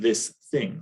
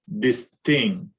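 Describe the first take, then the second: First: The words start with TH sounds. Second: The words start with D and T sounds.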